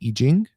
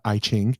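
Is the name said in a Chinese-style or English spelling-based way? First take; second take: Chinese-style; English spelling-based. First: The name is said in a Chinese-style way. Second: The name is said as its old spelling reads. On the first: The speaker calls it right. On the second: The speaker calls it wrong.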